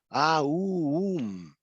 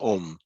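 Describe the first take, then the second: First: It glides from a to u before m. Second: It has a single o vowel before m. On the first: The speaker calls it right. "es Aum" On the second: The speaker calls it wrong. "no es Om"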